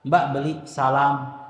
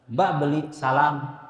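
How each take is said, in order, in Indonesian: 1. Vokal a dalam salam terdengar tebal. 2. Vokal a dalam salam terdengar tebal.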